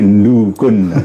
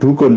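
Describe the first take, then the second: First: It starts with a nasal nd sound. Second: It starts with a plain d sound. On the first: It marks the doer of the action. "tapi dukun ... ndu" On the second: It is the plain base word. "gak gelem dukun"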